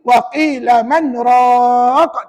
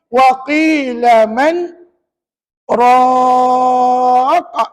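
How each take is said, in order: First: Man and raqa run together without a pause. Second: There is a brief pause between man and raqa. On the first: The speaker calls it wrong. "Tak boleh" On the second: The speaker calls it right. "Baru sakta"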